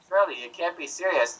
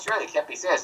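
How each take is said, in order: First: The line is spoken more slowly. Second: The line is spoken quickly. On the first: "now say it again slower" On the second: "You said it too fast"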